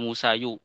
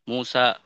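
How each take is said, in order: First: The name ends with an added 'yu' sound. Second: The name ends in a plain long 'a'. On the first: The underlying case ending is spelled out. The speaker calls it wrong. "tidak dibaca Musayu" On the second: The case vowel is hidden. The speaker calls it right. "Harokatnya disembunyikan semuanya"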